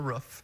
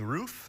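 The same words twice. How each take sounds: First: It is said the Upper Midwest way. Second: It is said the Southern California way. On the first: This is how the speaker says it now. "I've transferred to roof" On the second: This is how the speaker said it growing up. "I grew up saying roof"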